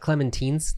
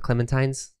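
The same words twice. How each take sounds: First: The last syllable rhymes with 'teen'. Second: The last syllable rhymes with 'tine'. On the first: The speaker calls it right. "it's clementines" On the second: The speaker calls it wrong. "not clementines"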